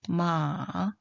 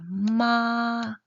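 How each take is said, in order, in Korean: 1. 낮게 내려갔다가 올라가요. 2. 높고 평평하게 유지돼요. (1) "삼성은요?" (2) "일성입니다"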